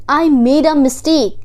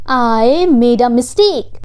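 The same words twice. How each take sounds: First: Said in the usual way. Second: "I made a mistake" said slowly; slow repeat. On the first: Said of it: "teacher models the phrase first". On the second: Shown as a demonstration. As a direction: stretch each word of "I made a mistake". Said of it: "slow repeat for learners".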